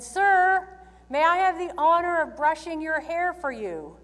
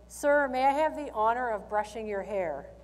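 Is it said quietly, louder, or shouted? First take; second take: louder; quiet. First: It is said a little louder. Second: It is said at a normal, quiet volume.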